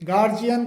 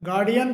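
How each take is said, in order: First: The middle consonant is a j sound. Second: The middle consonant is a d sound. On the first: The speaker calls it wrong. "सामान्यतया गार्जियन गार्जियन के रूप में बोला जाता है" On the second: The speaker calls it right. "इसका सही जो प्रोनाउंसिएशन होता है"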